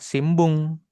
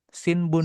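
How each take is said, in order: First: The nasal before b sounds like m. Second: The nasal before b sounds like n. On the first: This is how it is said in conversation. "Tapi cara bacanya gimana ini? Kalau ngobrol?" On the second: This is the written kana reading chosen on tests. "Kamu pilih yang Sinbung"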